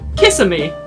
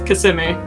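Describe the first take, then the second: First: It is said the way non-residents pronounce it. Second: It is said the way residents pronounce it. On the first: The speaker does not live there. "That that is how people pronounce it when they don't live there" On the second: The speaker has lived there. "But if they've lived there"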